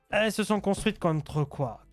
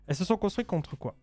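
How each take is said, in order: First: It is said with a noticeable put-on accent. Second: It is said in the speaker's usual neutral accent.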